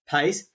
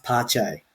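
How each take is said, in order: First: The name is pronounced the English way. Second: The name is pronounced the Brazilian way. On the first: The speaker calls it wrong. "you're used to hearing it being mispronounced" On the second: The speaker calls it right. "I think it's actually pronounced Pache, because he's Brazilian"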